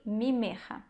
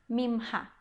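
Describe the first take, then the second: First: A short vowel separates the middle consonants. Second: The middle consonants are said together, no vowel. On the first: This is how it is read in scripture or prayer. "a forma correta em hebraico bíblico" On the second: This is the everyday modern way of speaking. "a gente tenta falar de uma maneira que é mais fácil"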